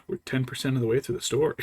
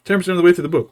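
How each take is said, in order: First: Said in the usual way. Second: Louder, higher, fed-up disbelief; exasperated outburst. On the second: Retold or imitated. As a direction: blurt it out, exasperated. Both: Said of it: "And I'm like".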